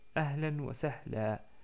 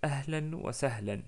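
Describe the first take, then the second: First: The final word ends with a vowel. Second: The final word ends with an n sound. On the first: "On peut dire aussi ahlan wa sahla" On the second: "Donc je répète"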